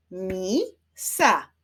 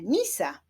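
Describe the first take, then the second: First: "Misa" split into mi, sa; syllable by syllable. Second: Said in the usual way. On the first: Shown as a demonstration. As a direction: clap out "Misa", pause between the syllables. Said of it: "wyklaszczmy sylaby". („Misa” sylabami: mi, sa) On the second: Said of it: "wyklaszczmy sylaby w wyrazie".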